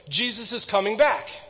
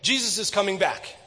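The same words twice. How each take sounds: First: It is said a little faster than normal. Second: It is said faster still, at the quickest speed. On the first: "I want you to say it a little bit faster" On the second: "a little bit faster"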